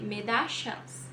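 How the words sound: It is said with an Argentine regional accent. "Na Argentina, eles vão, Argentina e Uruguai, né? Eles vão dizer"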